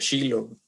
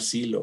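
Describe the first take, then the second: First: The name begins with an sh sound. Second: The name begins with a plain s sound. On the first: This is how the name is said in Hebrew. "creo que se pronuncia así en hebreo" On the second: This is the usual Spanish form of the name. "cómo le llaman a este lugar Silo"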